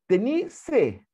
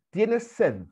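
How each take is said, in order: First: "Tení sed" said the casual Chilean way, final s dropped; Chilean casual form. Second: Said in the usual way. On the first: Shown as a demonstration. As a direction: say "Tení" loosely, like chatting with friends. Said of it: "y es, "¿Tienes sed?". ("Tení sed" coloquial chileno, sin la s final) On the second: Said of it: "y es".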